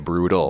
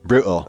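First: It is said in an American accent. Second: It is said in a London accent.

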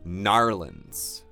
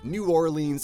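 First: The name is squeezed into two short syllables. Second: Both words are said fully and separately. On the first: It is how the locals usually say it. "generally speaking there It will be Narlands" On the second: It sounds like a sports announcer talking. "that sounds like a sportscaster of some kind"

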